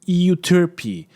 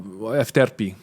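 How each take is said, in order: First: The name is said the usual English way. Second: The name is said the way Greek speakers say it. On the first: "If you want to pronounce it, Euterpe" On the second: "Efterpe, if uh, you're Greek"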